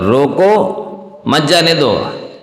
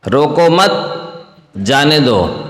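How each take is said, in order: First: The pause comes after रोको. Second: The pause comes after मत.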